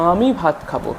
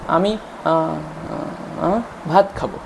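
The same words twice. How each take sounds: First: The first sound is held out long. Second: An extra sound is inserted mid-sentence. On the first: "এখানে আ কথাটা একটানা বাচ্চা উচ্চারণ করে গিয়ে তারপরে নেক্সট কথাটা বলছে" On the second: "মাঝখানে বাচ্চা কিছু একটা জুড়ে দিচ্ছে"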